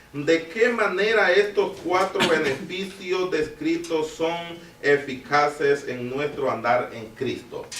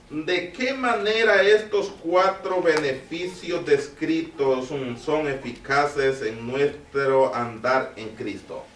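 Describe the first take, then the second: No difference in how they are said.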